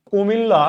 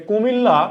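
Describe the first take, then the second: No difference in how they are said.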